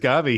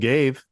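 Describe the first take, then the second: First: The word is said with two syllables. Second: The word is said with one syllable. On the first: The speaker calls it right. "Gavi's Gavi" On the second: The speaker calls it wrong. "He ain't no gave"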